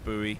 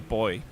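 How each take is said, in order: First: It is said the American way. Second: It is said the British way.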